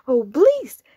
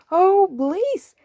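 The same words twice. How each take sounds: First: Louder grinning plea; happy pig. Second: Much higher, louder happy plea; eager cow. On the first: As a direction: say it with a big happy grin. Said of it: "says the pig with a happy grin". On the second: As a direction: beg eagerly like a cow wanting the bath. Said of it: "says the cow". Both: Acted.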